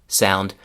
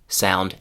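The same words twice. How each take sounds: No difference in how they are said.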